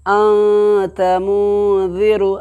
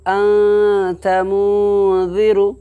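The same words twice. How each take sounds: No difference in how they are said.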